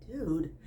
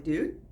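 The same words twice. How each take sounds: First: Dude falling and softer; resigned dude. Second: Dude with a rising tune; questioning dude. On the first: Teacher showing a soft, resigned "dude.". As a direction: let "dude." drop soft and final. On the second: Teacher showing a questioning "Dude". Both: Shown as a demonstration. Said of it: "said it fifty different ways".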